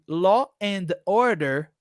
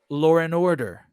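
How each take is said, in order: First: Each word is said separately, without linking. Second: The words run together with an inserted R sound. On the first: "aquele law and order" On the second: "virou law and order"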